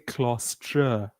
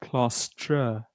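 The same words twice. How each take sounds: First: The word ends with an 'ah' vowel. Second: The same.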